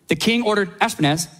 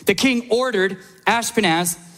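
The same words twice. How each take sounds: First: The name is read fast and confidently. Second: The name is read slowly and carefully.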